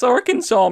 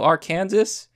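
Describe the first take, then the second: First: The word does not end like Kansas. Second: The word ends sounding like Kansas. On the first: The speaker calls it right. "No, it's Arkansas, man" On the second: The speaker calls it wrong. "Is that the second Kansas?"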